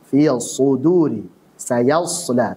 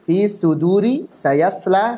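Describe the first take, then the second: First: The s-like consonant sounds thick and heavy. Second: The s-like consonant sounds thin and light. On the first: The speaker calls it right. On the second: The speaker calls it wrong. "membacanya dengan tipis"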